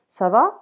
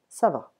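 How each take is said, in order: First: The pitch rises at the end. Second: The pitch falls at the end. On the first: It asks how someone is. "how are you" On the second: It says that one is fine. "I'm fine"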